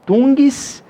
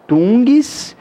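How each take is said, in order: First: "tungues" drawn out very slowly; slow demo. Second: Said in the usual way. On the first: Shown as a demonstration. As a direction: stretch "tungues" out to show the sound. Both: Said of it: "Repare que até a pronúncia é assim".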